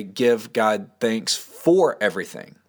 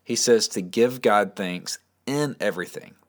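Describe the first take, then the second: First: "for" stressed, slow and falling; slow, weighty read that leans on "for". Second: "in" stressed against "for". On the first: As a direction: press the wrong word "for" to show the mistake. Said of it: "Notice it doesn't say". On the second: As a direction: lean on "in" to set it apart. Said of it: "let me emphasize a couple words". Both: Shown as a demonstration.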